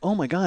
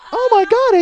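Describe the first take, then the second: First: It is said in the speaker's normal adult voice. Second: It is said in a put-on child's voice.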